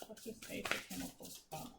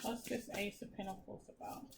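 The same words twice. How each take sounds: First: Whispered question to the cards. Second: Soft voice asking the cards; quiet question. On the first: Reader whispers her question to the tarot deck. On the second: Reader quietly asks the tarot deck, softly. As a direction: ask the deck softly under your breath. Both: Real, not acted.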